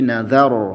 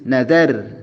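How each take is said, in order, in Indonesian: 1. Bunyi r-nya tebal dan berat. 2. Bunyi r-nya tipis dan ringan. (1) "tapi nazar, rohnya tebal ya" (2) "Atau rohnya jadi tipis"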